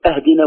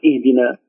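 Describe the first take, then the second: First: Higher أهدنا said "ahdina"; fatha opening. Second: اهدنا said "ihdina"; kasra opening. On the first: Teacher offering the first option, ahdina with a. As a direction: begin أهدنا on a. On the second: Teacher offering the second option, ihdina with i. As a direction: begin اهدنا on i. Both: Shown as a demonstration. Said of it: "تكسر".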